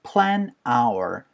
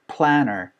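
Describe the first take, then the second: First: The two words are said separately. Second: The words run together like 'planner'. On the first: "N 사운드랑 R 사운드가 연결되면은" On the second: "N 사운드랑 R 사운드 연결되면서 planner"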